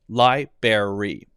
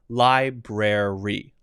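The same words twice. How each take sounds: First: The R in the second syllable is dropped. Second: The R in the second syllable is pronounced. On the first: The speaker calls it wrong. "a little kid will say library" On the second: The speaker calls it right. "this one has to have this R"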